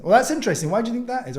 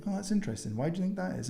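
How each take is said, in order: First: Higher and louder, quick and upbeat; louder, brighter take. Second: Soft, lowered voice on the question, curious; dropped voice. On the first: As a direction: say it out loud at full voice. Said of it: "are completely different sentences". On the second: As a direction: drop your voice right down and ask gently. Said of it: "dropping your voice when you say something". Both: Shown as a demonstration.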